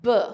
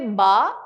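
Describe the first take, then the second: First: The b sound is said with no vowel. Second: The b sound is followed by a vowel. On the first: The speaker calls it right. "it's a B" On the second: The speaker calls it wrong. "Don't say ba"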